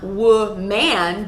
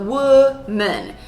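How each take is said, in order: First: Both syllables are stressed equally. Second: Only one syllable is stressed. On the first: The speaker calls it wrong. "So not woman" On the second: The speaker calls it right. "We stress one syllable"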